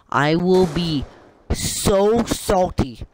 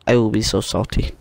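First: High, slow, stretched-out words; exaggerated, stretched salty complaint; drawn-out declaration. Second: Said in the usual way. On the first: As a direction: draw out each word for mock drama. Repeats line, first exaggerated then usual.

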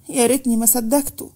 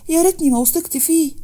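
First: A tearful "يا ريتني" lament; tearful regret. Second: "ريتني" pushed much higher, near breaking; rising tearful wail. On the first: Manal regretting trusting Fahd, tearful. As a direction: sigh "يا ريتني ما صدقته" out in regret. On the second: Manal regretting trusting Fahd, tearful wail. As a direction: let "يا ريتني" climb into a cry. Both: Acted. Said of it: "اتكلمت منال بدموع".

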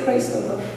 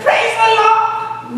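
First: Grudging praise. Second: Higher, slow, ringing praise; joyful praise. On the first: Preacher showing the praise he could not manage, low and muted. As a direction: lower and softer, a reluctant "Praise the Lord.". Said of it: "I wasn't able to say". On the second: Preacher acting the praise he should have given, rising and drawn out. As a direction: sing out "Praise the Lord!" in slow, high thanks. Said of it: "No, I wasn't able to say". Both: Retold or imitated.

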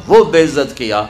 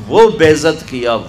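No difference in how they are said.

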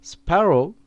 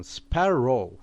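First: Said in the usual way. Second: Sparrow said slowly with a long held r; spa-rrow stretched out slowly for the class; slow teaching take. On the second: Shown as a demonstration. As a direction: draw out sparrow so learners hear every sound. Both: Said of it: "bakın sparrow".

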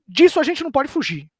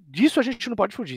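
First: "disso" punched high and loud, falling after; emphatic high. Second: Said in the usual way. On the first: Real, not acted. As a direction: hit "disso" high and hard.

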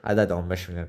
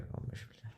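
First: Said in the usual way. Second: Breathy whispered "on beş milyar". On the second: Acted. Whispering the sum of money to tempt his friend. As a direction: hiss the sum again under the breath.

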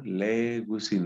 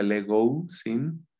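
First: Legusin with a single u sound, not legousin; correct pronunciation. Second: Legousin with a separate ou sound; wrong pronunciation. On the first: Teacher models the right pronunciation. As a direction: say Legusin as a diphthong. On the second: Teacher shows the mistaken pronunciation. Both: Shown as a demonstration. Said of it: "No se pronuncia legousin".

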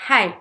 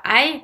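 First: "hi" with an audible puff of breath; aspirated H. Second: "I" with no breath before it; dropped H. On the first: Teacher correcting learners, "hi" with a clearly aspirated H. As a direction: breathe hard into the H of "hi". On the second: Teacher showing the French learner's mistake, "I" with no aspiration. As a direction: say "I" as "hi" minus its H. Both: Shown as a demonstration. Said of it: "C'est pas I".

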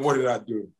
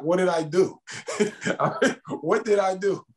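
First: Said in the usual way. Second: Pitched well up, pleading and half laughing; incredulous high plea. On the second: Retold or imitated. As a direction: act baffled, voice climbing high. Repeating the question, rising in disbelief.

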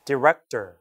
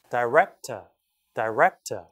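First: Director as "di-REK-ter"; short first vowel in director; American pronunciation. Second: Director as "dai-REK-tuh"; British pronunciation. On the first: Teacher echoing the recording, American director as "di-REK-ter". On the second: Teacher echoing the recording, British director as "dai-REK-tuh". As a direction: open director with "die", drop the final r. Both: Shown as a demonstration. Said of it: "영국식으로는".

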